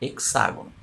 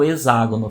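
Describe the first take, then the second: First: The x is said as an x sound. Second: The x is said as an s sound. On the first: The speaker calls it right. "quando eu vou falar hexágono, então eu uso o som do X" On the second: The speaker calls it wrong. "eu não falo hexágono, fica meio estranho"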